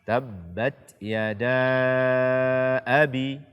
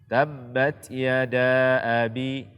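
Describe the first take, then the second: First: The vowel before abi is held long. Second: The vowel before abi is cut short. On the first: The speaker calls it right. "Minimalnya dibaca empat harakat" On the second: The speaker calls it wrong. "Ini kurang daripada empat harakat"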